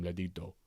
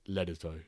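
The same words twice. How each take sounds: First: LEDITO in a put-on accent. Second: LEDITO in a proper English accent. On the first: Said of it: "accent pronunciation whenever I say your name". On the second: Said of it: "say it in a proper English accent". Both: Shown as a demonstration.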